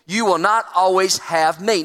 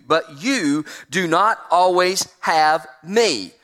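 First: Not leaned on, preacher repeating it; stress on not. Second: Slow, every word pressed; slow, weighty reading. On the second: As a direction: let the Lord's words land slowly. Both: Shown as a demonstration.

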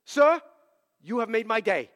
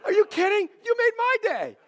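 First: Put-on accented caller laughing, "made" stressed; a lightly accented caller laughing with joy; plain "you have made my day" said through a laugh. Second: Much higher and loud, laughing, "my" stressed; elated retold reply with the stress on "my"; laughing delight. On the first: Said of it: "I'll give him a little accent". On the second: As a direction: toss "my" back at him with a laugh. Joyful reply to caller.

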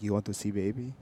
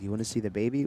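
First: Put-on "You want to see baby?" in a throaty Eastern European accent. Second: Said in the usual way. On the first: Host quotes the Ukrainian neighbor in a throaty Eastern European accent. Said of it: "That was pretty good". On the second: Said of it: "Or more like".

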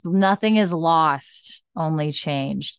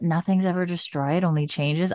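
First: Slow careful quote. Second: Said in the usual way. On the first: Shown as a demonstration. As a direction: land the remembered line slowly and deliberately. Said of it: "There we go. I got there". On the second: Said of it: "totally fucking up that line".

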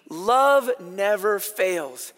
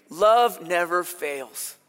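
First: Love never fails, said very slowly with stress on love; slow, solemn scripture quote. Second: Love never fails again slower and lower, love stressed; drawn out Love never fails, calm and low; slow, low repeat of the verse. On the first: Preacher quoting scripture to the congregation, slow and solemn. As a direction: pause on each word of Love never fails. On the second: Pastor repeating the verse to reassure nervous listeners, slow and low. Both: Shown as a demonstration. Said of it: "This is in your Bible".

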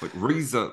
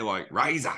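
First: "razor" with a soft vowel, no hard A. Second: "razor" said with a long ee-like first vowel; Aussie razor. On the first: Guest shows the host how Australians say it, no hard A. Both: Shown as a demonstration. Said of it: "they don't do, like, a hard A".

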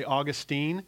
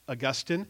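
First: Put-on Augustine said as AW-gus-teen, stress on the first syllable; alternate pronunciation. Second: Augustine said as uh-GUS-tin, stress on the second syllable; first pronunciation. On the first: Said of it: "depends on which syllable you put the emphasis". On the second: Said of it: "or you could say Augustine". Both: Shown as a demonstration.

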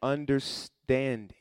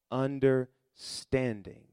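First: Slow, stretched out; drawn-out answer. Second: Even slower, settling; slower repeat. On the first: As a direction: draw the word out for them. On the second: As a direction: let it sink, slowly. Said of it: "repeated slower". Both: Shown as a demonstration.

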